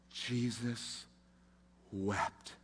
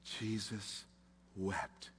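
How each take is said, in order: First: Low, near-breathless telling; hushed reverence. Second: Even softer, barely there; fading hush. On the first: Preacher repeating the verse, hushed and low. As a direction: hold back, almost gone. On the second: Preacher repeating the verse, fading to a bare hush. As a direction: let it die away to nothing. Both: Acted.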